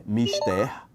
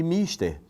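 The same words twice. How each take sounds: First: Mister stressed on the first syllable, slowly drawn out; pronúncia errada. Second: Mister stressed on the last syllable, rising high; pronúncia correta. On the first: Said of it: "Tem gente que diz". (mister pronunciado como em inglês, tônica na primeira sílaba, arrastado) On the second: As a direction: say mister Latin-style, stress on the final syllable. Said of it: "é uma palavra do latim". (mister com a tônica na última sílaba, como no latim) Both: Shown as a demonstration.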